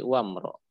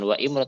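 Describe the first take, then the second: First: The 'i' is dropped, linking wa to mro. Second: The 'i' starting imro is pronounced separately. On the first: The speaker calls it right. "tapi wa mro" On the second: The speaker calls it wrong. "Jadi bukan wa imro"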